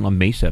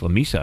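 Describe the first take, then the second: First: La Mesa with Mesa said MAY-sa; wrong La Mesa. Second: La Mesa with Mesa said MEE-sa; corrected La Mesa. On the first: Host correcting himself on air: Mesa said MAY-sa. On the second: Host corrects himself: Mesa said MEE-sa. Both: Shown as a demonstration. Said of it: "I was saying La Mesa, but it's".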